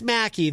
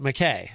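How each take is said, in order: First: The name ends with an 'ee' sound. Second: The name ends with an 'ay' sound. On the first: The speaker calls it right. "it's Mackie" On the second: The speaker calls it wrong. "Easy G pronounces it McKay"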